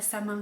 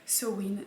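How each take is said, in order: First: It is said like 'sa-main', with an m. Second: It is said like 'sow-in', without an m. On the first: The speaker calls it wrong. "ça ne se prononce pas sa main comme je l'ai prononcé dans ma dernière vidéo" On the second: The speaker calls it right. "mais Sewin"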